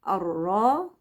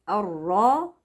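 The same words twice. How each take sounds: The two takes are said the same way.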